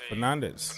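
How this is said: The name is said with English pronunciation. "English people, they're gonna say Fernandez"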